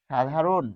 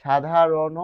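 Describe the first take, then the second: First: "সাধারণ" closed on n, sha-dha-ron; demonstrated pronunciation. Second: "সাধারণ" with an open ending, sha-dha-ro-no; louder "সাধারণ", final vowel sounded; demonstrated pronunciation. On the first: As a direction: stop "সাধারণ" on the final n. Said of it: "যেহেতু আমরা থেমে যাই". ("সাধারণ" হসন্ত দিয়ে, শাধারোন) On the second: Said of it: "এই মধ্য অ হবে". ("সাধারণ" শেষে ও-সহ, শাধারোনো) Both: Shown as a demonstration.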